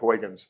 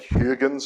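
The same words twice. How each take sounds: First: The name is said with an American pronunciation. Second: The name is said with a Dutch pronunciation. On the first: This is the adapted form used by English speakers. "we Americanize it and call it Huygens" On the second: This is how the name is said in its own language. "My Dutch pronunciation really stinks, but it's like Huygens or something"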